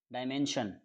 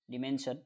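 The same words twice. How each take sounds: First: डायमेंशन opened with a long dye sound; dye-mension. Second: डिमेंशन opened with a short di sound; short di version. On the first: Teacher giving the first of two pronunciations, dye-men-shun. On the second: Teacher giving the second pronunciation, di-men-shun. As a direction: start डिमेंशन on a quick short di. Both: Shown as a demonstration. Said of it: "डायमेंशन भी इसका प्रोनाउंसिएट कर सकते हैं".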